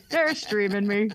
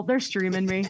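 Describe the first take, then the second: First: Slow delighted repeat. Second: Said in the usual way. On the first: Retold or imitated. Host repeating it slowly, tickled that Southern callers stream her. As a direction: draw out They're streaming me, savoring it. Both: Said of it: "And I'd be like".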